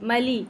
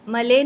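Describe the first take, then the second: First: The vowel after the L is a pure 'ee'. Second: The vowel after the L is like 'ay'. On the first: The speaker calls it right. "लाम की ज़ेर को मारूफ रखेंगे" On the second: The speaker calls it wrong. "मले नहीं पढ़ेंगे"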